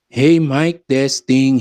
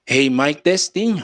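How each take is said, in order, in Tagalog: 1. Buo ang boses, at buo pa ang bass. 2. Manipis ang boses, wala na ang bass.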